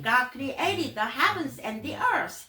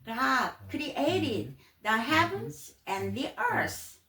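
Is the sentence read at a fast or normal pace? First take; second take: fast; normal. First: It is read at a quick, fast pace. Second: It is read at a normal, unhurried pace.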